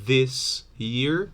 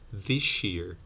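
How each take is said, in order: First: 'This' ends with a plain s sound. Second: 'This' ends with an sh sound.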